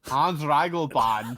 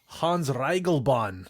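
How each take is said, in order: First: Put-on laughing German accent on the name. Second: Slow mock German accent on the name. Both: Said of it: "We're going to do the rest of this podcast in German accents".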